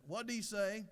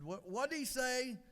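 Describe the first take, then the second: First: Higher-pitched, puzzled query; hard-of-hearing wife. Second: Slow, high-pitched, puzzled demand; a little frustrated. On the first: Hard-of-hearing wife asks her husband, puzzled. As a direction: ask it like you missed every word. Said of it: "extremely hard of hearing". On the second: Wife questions her husband about the attendant, a little frustrated. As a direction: ask slower and higher, mildly fed up. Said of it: "a little frustrated and said". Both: Acted.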